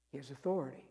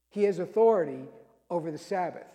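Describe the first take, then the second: First: "He has authority" said softly and lower; quiet refrain. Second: "He has authority" said louder, stressing "authority"; emphatic refrain. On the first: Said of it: "repeated refrain, said softly". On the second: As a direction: proclaim "He has authority" firmly. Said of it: "repeated refrain, said emphatically". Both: Shown as a demonstration.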